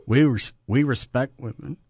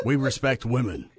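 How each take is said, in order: First: Trying not to laugh; failing straight face. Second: Deadpan, without laughing; straight face. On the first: Real, not acted. Co-host claims respect for women, failing straight face. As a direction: barely hold back the laughter while claiming it. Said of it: "can't even say that with a straight face". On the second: Shown as a demonstration. Co-host retries the claim on request, straight face. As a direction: say it earnestly, holding the laugh in. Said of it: "Say that one more time without laughing".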